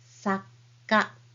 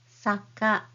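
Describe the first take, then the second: First: A short pause comes before the k sound. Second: It is said smoothly with no pause inside. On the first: "with small t, it'll be saka" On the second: "So this is saka"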